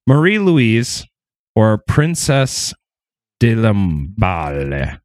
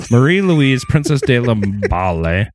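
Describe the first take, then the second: First: French pronunciation. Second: Said in the usual way. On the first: Acted. Names said with French flair.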